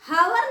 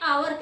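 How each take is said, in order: First: The word begins with an h sound. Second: The word begins with a vowel sound. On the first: The speaker calls it wrong. "हावर नहीं कह रहे हैं उसको" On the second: The speaker calls it right. "आवर कह रहे हैं"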